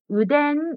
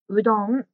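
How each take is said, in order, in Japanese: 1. 真ん中の音節の母音は'e'です。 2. 真ん中の音節の母音は'o'です。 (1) "うどんがうでんに聞こえました" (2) "真ん中の文字の発音が少し難しいですね"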